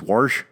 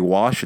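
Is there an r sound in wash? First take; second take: yes; no. First: The word is said with an added r sound. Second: The word is said without an r sound. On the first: "it's warsh" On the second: "We don't say wash"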